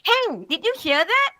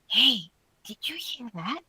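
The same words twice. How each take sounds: First: It is shouted loudly. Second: It is said very softly. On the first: The speaker is in a noisy, crowded market. "you're probably going to shout" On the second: The speaker is in a quiet library. "It's going to be really soft"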